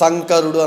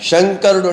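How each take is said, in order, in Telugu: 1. ఈ పదం 's' శబ్దంతో మొదలవుతుంది. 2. ఈ పదం 'sh' శబ్దంతో మొదలవుతుంది. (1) "శంకరుడు అనడము ... ఉచ్చారణ దోషాలు" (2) "శంకరుడు అంటే"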